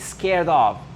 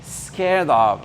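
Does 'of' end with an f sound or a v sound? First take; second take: v sound; v sound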